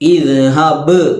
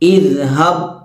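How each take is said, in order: First: The final b is released clearly and distinctly. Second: The final b is weak and barely released. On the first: The speaker calls it right. "വ്യക്തമാക്കി" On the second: The speaker calls it wrong. "ഇദ്ഹബ് എന്ന് ഓതുന്നതിന് പകരം"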